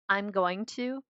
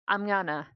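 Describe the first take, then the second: First: Both words of 'going to' are said fully. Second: 'Going to' is run together as 'gonna'. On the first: "I say I'm going to" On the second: "but I pronounce it I'm gonna"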